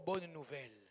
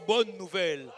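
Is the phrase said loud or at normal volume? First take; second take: normal; loud. First: It is said at normal volume. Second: It is said loudly. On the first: "Dis avec moi" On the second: "Monte le son"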